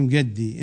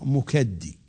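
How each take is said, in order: First: The middle consonant is a g sound. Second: The middle consonant is a k sound. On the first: This is the Iraqi dialect form. "باللهجة العراقية نقول مقدي" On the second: This is the standard Arabic form. "باللغة العربية الفصحى مكدي"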